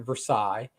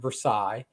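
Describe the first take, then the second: First: It is said the familiar, widely known way. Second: The same.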